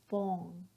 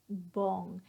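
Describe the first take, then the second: First: The R sound is left out. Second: The same.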